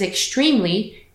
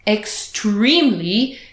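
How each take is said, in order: First: The word is said in a plain, ordinary way. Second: The word is said with strong, forceful emphasis.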